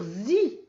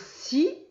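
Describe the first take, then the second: First: The syllable begins with a buzzing z sound. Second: The syllable begins with a hissing s sound. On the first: The letter before it is a vowel. "mais on peut aussi dire zi" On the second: The letter before it is not a vowel. "on pourrait dire si"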